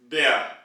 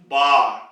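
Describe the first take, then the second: First: The vowel is a front ä like 'e'. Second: The vowel is a plain open a. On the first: "with the two dots or umlaut" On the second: "then it will be converted to bar"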